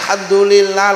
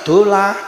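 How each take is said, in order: First: The phrase is said in full, every syllable. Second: The phrase is clipped to its last syllables. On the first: The speaker calls it right. "Ayo sing dadi kiai dikulinakne alhamdulillah" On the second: The speaker calls it wrong. "lah kok lek maca tibane dolah"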